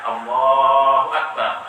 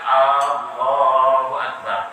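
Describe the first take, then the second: First: The opening vowel of Allahu is short. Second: The opening vowel of Allahu is drawn out long. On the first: The speaker calls it right. "alif dari Allah tidak boleh panjang" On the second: The speaker calls it wrong.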